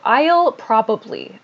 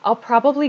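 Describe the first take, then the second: First: Every syllable is said slowly and clearly. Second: The syllables are quick, short and reduced. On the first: The speaker calls it wrong. "I read this very, very clearly and slowly just now" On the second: The speaker calls it right. "to sound very natural, we say"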